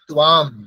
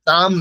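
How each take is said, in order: First: The word has a w sound after t. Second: The word has no w sound after t. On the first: The speaker calls it right. "ওয়ের উচ্চারণটাও করতে হবে" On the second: The speaker calls it wrong. "তাম নয়"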